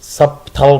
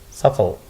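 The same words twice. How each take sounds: First: The b is sounded in the middle. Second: The b is silent in the middle. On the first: The speaker calls it wrong. "haddii kale maxay noqon lahayd subtle bay noqon lahayd" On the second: The speaker calls it right.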